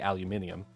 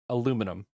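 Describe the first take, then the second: First: It is said with five syllables, ending -nium. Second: It is said with four syllables, ending -num. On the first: This is how it is said in England and Europe. "In England and most other European countries that do speak English, you say aluminium" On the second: This is how it is said in America. "In America, we say aluminum"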